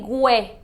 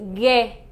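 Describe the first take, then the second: First: A 'w' sound is heard after the g. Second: No 'w' sound is heard after the g. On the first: The speaker calls it wrong. "You don't say gue" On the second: The speaker calls it right. "you say ge"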